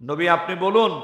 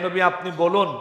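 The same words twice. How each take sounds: The two takes are said the same way.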